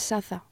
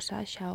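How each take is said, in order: First: The middle consonant sounds like 'th'. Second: The middle consonant sounds like 'sh'. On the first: The speaker calls it right. "Es Saza" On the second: The speaker calls it wrong. "o Sasha"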